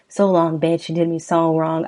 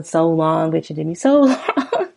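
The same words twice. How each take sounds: First: Said in the usual way. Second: Laughing mid-line at the repeat. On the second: Shown as a demonstration. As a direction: crack up while quoting it. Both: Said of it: "It just repeats the".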